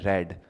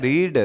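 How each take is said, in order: First: The vowel is a short 'e' sound. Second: The vowel is a long 'ee' sound. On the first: It is the past participle form of the verb. "Third form" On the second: It is the present form of the verb. "रीड first form होती है"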